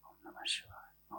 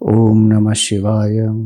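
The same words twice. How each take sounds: First: It is murmured so softly it is barely audible. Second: It is spoken fairly loudly and clearly. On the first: This is the subtler, inward form of repetition. "ऐसे बोलते हैं जैसे पास वाले को भी सुनाई ना दे, लेकिन आवाज आएगी" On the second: This is the gross, outward form of repetition. "थोड़ा जोर से हम बोलते हैं, जोर से बोला"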